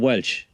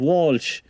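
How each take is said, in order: First: The name is said with an 'eh' vowel. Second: The name is said with an 'aw' vowel. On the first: This is how the name is said in Wexford. "we call Welsh in Wexford" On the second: This is how the name is said elsewhere. "everyone called Walsh"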